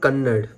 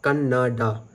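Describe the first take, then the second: First: The word ends on a consonant, no final vowel. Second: The word ends with a final vowel sound. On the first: The speaker calls it wrong. "Not Kannad" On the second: The speaker calls it right. "Kannada is just pronounced as Kannada"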